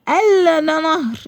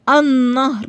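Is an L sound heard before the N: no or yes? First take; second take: yes; no. First: The L is clearly pronounced before the N. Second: The L is silent; the N sound is doubled. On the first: The speaker calls it wrong. "ما قلتش ال نهر" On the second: The speaker calls it right. "اللام ما نطقتهاش بس كتبتها لانها لام شمسية"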